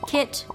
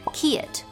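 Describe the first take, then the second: First: The word has a single vowel sound. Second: The vowel stretches into two vowel sounds. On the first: This is the speaker's own dialect. "have a single vowel sound in my dialect" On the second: This is how it sounds in Southern English. "stretch out in Southern English to sound like two vowels"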